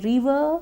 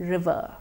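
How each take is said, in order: First: The first vowel is long and stretched. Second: The first vowel is short. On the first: The speaker calls it wrong. "Did someone say river? That's not right" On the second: The speaker calls it right. "The word is pronounced river"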